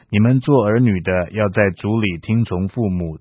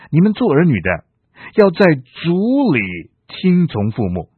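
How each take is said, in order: First: The sentence is read evenly with no special emphasis. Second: Emphasis falls on 在主里 and 听从父母. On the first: Children should simply obey their parents. "你可以这样读说" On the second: Obedience to parents is bounded by faith in the Lord. "我强调的是在主里听从父母"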